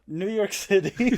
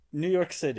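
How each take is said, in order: First: High, loud, stretched-out scene title; insistent dramatic announcement. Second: Raised, louder location announcement; dramatic scene-setter. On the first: Storyteller talks over a confused friend's questions, announcing grandly and slowly. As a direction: draw out the location grandly and insistently. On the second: Storyteller opens the game's next chapter, in a dramatic announcing voice. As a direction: announce the new setting with some drama. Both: Acted.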